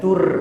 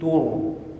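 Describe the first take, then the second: First: The r is pronounced light and thin. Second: The r is pronounced heavy and thick. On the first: The speaker calls it wrong. "bukan tur" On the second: The speaker calls it right. "Itu ra harus tebal"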